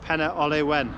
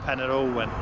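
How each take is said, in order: First: The second word has three syllables, Ole-wen. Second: The second word has two syllables, Ol-wen. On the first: The speaker calls it right. "It's Penna Olewen" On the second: The speaker calls it wrong. "not Penna Olwen"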